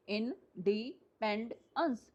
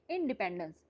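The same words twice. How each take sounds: First: independence very slowly as in, di, pend, ence; syllable by syllable. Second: Said in the usual way. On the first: Shown as a demonstration. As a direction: count out independence with a gap after each syllable. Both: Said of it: "इसमें कितने syllable हैं".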